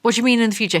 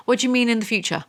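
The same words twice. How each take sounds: First: Louder, exasperated repeat stressing "mean"; louder incredulity. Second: Incredulous. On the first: Repeating the book's line back in disbelief, louder. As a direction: demand it again, louder. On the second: Incredulous at the book. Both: Real, not acted.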